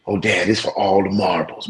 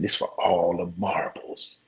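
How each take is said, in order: First: Said in the usual way. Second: Slow, whispered "This for all the marbles"; dramatic hush. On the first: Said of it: "he like". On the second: Retold or imitated. Son hypes the final race to dad, slow whisper. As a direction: hush it like the big stakes. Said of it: "He said".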